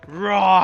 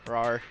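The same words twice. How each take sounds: First: The word is said with lively, high energy. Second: The word is said with little energy. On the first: The speaker calls it right. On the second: The speaker calls it wrong.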